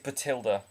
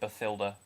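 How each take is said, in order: First: The middle consonant is a plain t sound. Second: The middle consonant is a th sound. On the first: The speaker calls it right. "it is Batilda, by the way" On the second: The speaker calls it wrong. "that's not how you say it"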